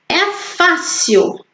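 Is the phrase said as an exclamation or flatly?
exclamation. It is said with lively exclamative intonation. The speaker calls it right. "Eu vou ler com ponto de exclamação"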